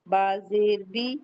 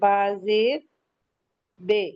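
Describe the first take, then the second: First: The final syllable ends in a pure 'ee' vowel. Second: The final syllable ends in an 'ay' vowel. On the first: The speaker calls it right. "मारूफ क्या है, जैसे ये" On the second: The speaker calls it wrong. "तो ये मजहूल हो गया"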